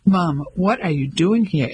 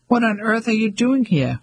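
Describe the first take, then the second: First: Level, disapproving demand with weight on "doing"; a son confronting his mother; stern questioning; critical. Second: Higher, delighted disbelief on "doing"; a mother caught off guard by her son's arrival; astonished question; surprised. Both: Acted.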